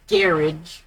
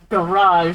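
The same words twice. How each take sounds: First: It is said the British way. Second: It is said the French-like American way. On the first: The speaker calls it wrong. "and not garage" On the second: The speaker calls it right. "it's pronounced something similar to garage"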